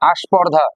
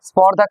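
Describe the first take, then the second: First: An extra vowel is added before the consonant cluster. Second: The word starts directly with the consonant cluster. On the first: "প্রথমে আগমন ঘটলো" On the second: "স্পর্ধা ছিল"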